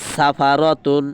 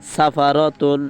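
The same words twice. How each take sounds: Both takes have the same delivery.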